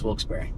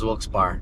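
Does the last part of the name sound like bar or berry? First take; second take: berry; bar. First: The last part sounds like berry. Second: The last part sounds like bar. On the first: The speaker calls it right. "but it's Wilkes-Barre" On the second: The speaker calls it wrong. "I used to think it was Wilkes-Barre"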